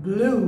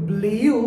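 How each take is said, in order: First: Blew said as BLOO; correct pronunciation. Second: Blew said as BLEE-yoo; common mispronunciation. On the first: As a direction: say blew with a plain oo, no y. (blew সঠিকভাবে ব্লু) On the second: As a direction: put a drawn-out y glide into blew. (blew ভুলভাবে ব্লিউ) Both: Shown as a demonstration. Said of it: "এগুলো প্রত্যেকটা ভুল".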